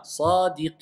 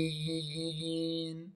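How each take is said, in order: First: SADIQIN ending on a plain N, no held hum; without ghunna. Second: SADIQIN with the final N held as a long, soft nasal hum; with ghunna. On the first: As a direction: stretch the I of sadiqin and close simply on N. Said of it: "Sans runna". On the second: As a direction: let the end of sadiqin hum on through the nose. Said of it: "si je mets la runna". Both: Shown as a demonstration.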